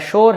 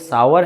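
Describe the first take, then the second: First: It is said as one syllable starting 'sh'. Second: It is said as two syllables, 'sow-er'. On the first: The speaker calls it wrong. "ना ही आपका शोर" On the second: The speaker calls it right. "बल्कि ये सावर है"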